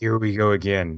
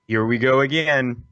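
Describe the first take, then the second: First: It imitates the movie character's delivery. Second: It is said in his normal voice.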